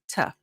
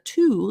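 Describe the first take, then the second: First: The word has a short reduced uh vowel. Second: The word has a full oo vowel. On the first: "we reduce T O" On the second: "instead of two, like the number two"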